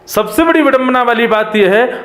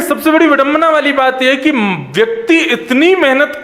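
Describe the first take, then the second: First: Said in the usual way. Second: Quick, lifted quote of the yogi's words; quoting the sage. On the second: Retold or imitated. Preacher quotes the yogi Antariksha to his listeners, quicker and higher. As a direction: rattle off the sage's saying a bit higher and faster. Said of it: "वो कह रहे हैं".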